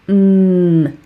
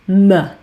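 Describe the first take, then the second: First: A pure consonant with no vowel after it. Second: The consonant is followed by an 'uh' vowel. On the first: The speaker calls it right. "it makes a mm sound" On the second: The speaker calls it wrong. "often I hear that pronounced as"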